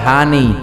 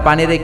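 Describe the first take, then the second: First: The word begins with an h sound. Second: The word begins with a p sound. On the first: "কয় হানি।" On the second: "আপনারা পানিরে কি কন?"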